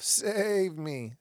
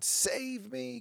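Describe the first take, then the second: First: Louder, higher mocking plea; showing how the cry sounds when said loud, louder and higher. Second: High-pitched mocking plea for rescue; mocking a crowd begging to be saved, high and pleading; mock screaming. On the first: Shown as a demonstration. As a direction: belt out the plea like a crowd calling. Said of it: "Say it loud enough". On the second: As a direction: whine it way up high like a needy crowd. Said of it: "So many people screaming".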